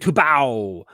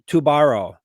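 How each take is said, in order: First: The middle R sound is softened or dropped. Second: The middle consonant is a clear R sound. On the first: The speaker calls it right. "Oh, that's right. It's Brazilian" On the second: The speaker calls it wrong. "Am I saying it wrong?"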